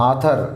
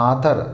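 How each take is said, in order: No difference in how they are said.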